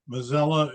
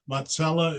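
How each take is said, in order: First: The name is said the American way. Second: The name is said the Italian way. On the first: This is how the name is said in America. "in America" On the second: This is how the name is said in Italy. "in Italy"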